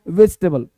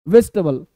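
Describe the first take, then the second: No difference in how they are said.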